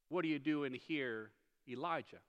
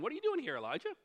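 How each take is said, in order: First: It is said in a gentle, caring tone. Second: It is said in a puzzled, questioning tone.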